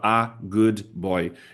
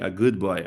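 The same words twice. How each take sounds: First: The words are said separately, not linked. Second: The words are linked together smoothly. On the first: The speaker calls it wrong. "ele não vai falar a good boy" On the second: The speaker calls it right. "Ele vai conectar"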